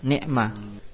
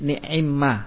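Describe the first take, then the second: First: The ain has no vowel after it. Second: The ain has an i vowel, with doubled m. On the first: "Ketika apa ni'ma tersebut ainnya disukun" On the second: "ketika ainnya dikasroh, ni'imma dibacanya menjadi ni'imma"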